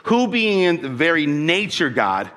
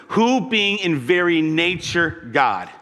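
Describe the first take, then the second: First: Said in the usual way. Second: Slow deliberate scripture emphasis; slow, weighty reading. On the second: Shown as a demonstration. Preacher rereading the verse to his church, slowly and deliberately. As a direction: read it slowly, leaning on each word. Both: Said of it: "now listen".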